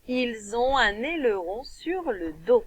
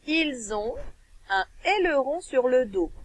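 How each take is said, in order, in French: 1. Les mots sont liés entre eux par des liaisons. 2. Les mots sont prononcés séparément, sans liaison.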